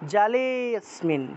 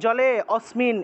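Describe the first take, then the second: First: The 'a' is dropped; 'le' is drawn out. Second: The 'a' before 'smin' is fully pronounced separately. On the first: The speaker calls it right. "এইভাবে। জলে লে থেকে টান দিবেন, তারপরে স্মিন উচ্চারণ করবেন।" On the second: The speaker calls it wrong. "এভাবে আলাদা আলাদা করে অটাকে আলাদা উচ্চারণ করলে তো অ এর উচ্চারণটা পূর্ণ হয়ে গেল"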